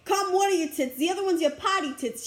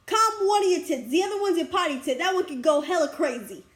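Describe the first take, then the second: First: Said in the usual way. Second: Put-on Boston accent. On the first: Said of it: "And she's like". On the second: Imitating her friend's joke about calming down, Boston accent. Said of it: "in Boston accent".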